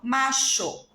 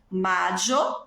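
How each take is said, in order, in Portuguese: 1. A consoante do meio é um som de sh. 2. A consoante do meio é um som de y.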